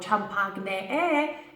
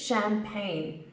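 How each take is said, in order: First: The ch and g letters are sounded out. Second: The ch and g letters are left silent. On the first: The speaker calls it wrong. "It's not champagne" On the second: The speaker calls it right. "it's champagne. We completely ignore the C H and the G"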